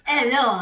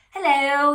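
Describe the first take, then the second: First: Loud, high French hello with dropped H; French town clerk's bold hello; French accent. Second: Put-on loud, high hello, no French accent; clerk's hearty hello in own accent; town clerk greeting. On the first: Acted. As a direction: greet in a put-on French accent. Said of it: "I can't do a French accent". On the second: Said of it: "The town clerk ... introduces himself".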